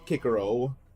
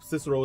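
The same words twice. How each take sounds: First: The name is said the classical Latin way. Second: The name is said the modern English way. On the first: This is how the ancient Romans said it. "the Romans call pronounced it Cicero" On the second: This is how people say it today. "Cicero is how we pronounce it"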